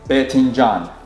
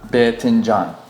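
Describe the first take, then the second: First: It is said in the Iraqi dialect. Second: The same.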